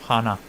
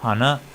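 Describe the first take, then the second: First: "Hana" low and falling; low "Hana" with a falling end, as the take to avoid; unimitated pitch accent. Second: Corrected "hana" with a rising tune; imitated pitch accent. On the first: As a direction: let "Hana" drop in pitch. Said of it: "no, hana". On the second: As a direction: lift "hana" upward as the model to copy. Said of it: "No imitéis". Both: Shown as a demonstration.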